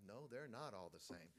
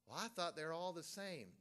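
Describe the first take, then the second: First: Said in the usual way. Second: Higher-pitched mimicked objector; mock objection. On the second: Preacher imitating someone who thought all Bibles matched, mock protest. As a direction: voice a naive doubter's protest. Voices objector, then answers himself.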